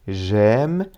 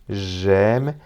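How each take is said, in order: Both takes have the same delivery.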